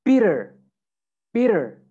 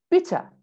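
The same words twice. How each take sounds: First: American "bitter", tt as a quick D, R kept; American accent. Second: British "bitter", crisp T and no R; R-less British "bitter" with a true T; British accent. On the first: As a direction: say "bitter" like "bidder", American style. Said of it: "American accent, you would say". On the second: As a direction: say "bitter" like "bit-tah", British style. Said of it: "in British English ... say the T". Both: Shown as a demonstration.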